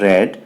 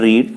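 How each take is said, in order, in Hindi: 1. स्वर छोटी 'e' ध्वनि है। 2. स्वर लंबी 'ee' ध्वनि है। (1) "उसका जो उच्चारण है वो चेंज हो जाता है। तो इसको हम लोग पढ़ेंगे रेड" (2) "अब पढ़ने की इंग्लिश क्या होता है? रीड"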